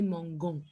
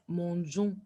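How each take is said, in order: First: The g is hard, like the g in go. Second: The g is soft, like the s in measure. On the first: The speaker calls it wrong. "au lieu de prononcer mangon" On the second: The speaker calls it right. "pour bien garder le son de J"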